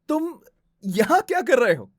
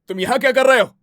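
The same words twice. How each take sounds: First: The line sounds happily surprised. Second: The line sounds angry in a high pitch. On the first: "surprised, happily surprised" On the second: "high pitch में अगर हम angry होते हैं तो"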